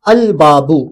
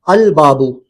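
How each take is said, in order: No difference in how they are said.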